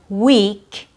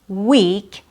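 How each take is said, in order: First: The E vowel is held long. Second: The same.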